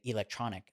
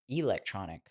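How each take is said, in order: First: It is said with a standard American pronunciation. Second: It is said with a Chinese-influenced pronunciation. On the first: The speaker calls it right. "people would say electronic" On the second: The speaker calls it wrong. "a word that I was used to saying electronic. That's where the Chinese kind of came in"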